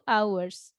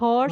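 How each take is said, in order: First: The word starts with a vowel, h silent. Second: The word starts with a pronounced h sound. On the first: The speaker calls it right. "Two hours hanya mati, yang dibaca cuman O dan setelahnya" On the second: The speaker calls it wrong. "bacanya bukan horse ya"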